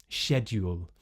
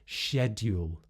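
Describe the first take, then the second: No difference in how they are said.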